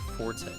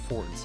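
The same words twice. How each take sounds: First: The word is said as two syllables, 'for-tay'. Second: The word is said as one syllable, 'fort'. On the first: Loud, as in Italian. The speaker calls it wrong. "not your forte" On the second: Something you are good at. The speaker calls it right. "it is your forte"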